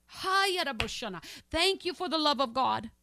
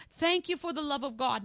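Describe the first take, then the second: First: Slow prayerful thanks. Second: Said in the usual way. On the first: Real, not acted. Tongues then slow thanks.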